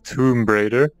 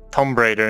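First: Tomb is said with a long vowel. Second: Tomb is said with a short vowel. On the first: The speaker calls it right. "there should be two O's" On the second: The speaker calls it wrong. "something I said wrong my entire teenage years"

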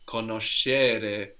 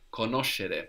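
First: The stress is not on the third-last syllable. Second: The stress is on the third-last syllable. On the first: The speaker calls it wrong. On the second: The speaker calls it right. "we have the accent third from the end"

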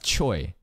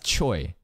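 First: The name has an 'oy' vowel sound. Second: The same.

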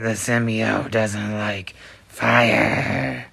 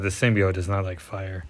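First: It is said in a Venom voice. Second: It is said in his normal voice.

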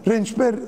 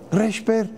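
First: The word is said with an n sound. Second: The word is said without an n sound. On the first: This is the standard form. "doğrusu rençper ama" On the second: This is the local dialect form. "Şeyde de Yalvaç'ta da reşper"

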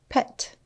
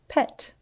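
No difference in how they are said.

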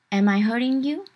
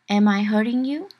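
Both takes have the same delivery.

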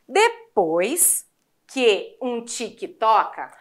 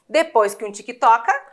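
First: The line is said at a slow pace. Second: The line is said at a faster pace. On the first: "Assim devagar não foi" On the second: "Quer tentar um pouquinho mais rápido?"

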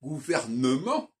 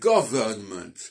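First: A vowel sounds between the n and the m. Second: No vowel sounds between the n and the m. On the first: The speaker calls it wrong. "Ce n'est pas « gouvernement »" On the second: The speaker calls it right. "il n'y a pas le « e » entre le « n » et le « m »"

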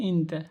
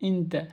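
The two takes are said the same way.

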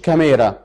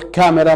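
First: The stress is on the second syllable. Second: The stress is on the first syllable. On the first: The speaker calls it wrong. "ما اقولش كاميرا" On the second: The speaker calls it right. "ليه بقول كاميرا"

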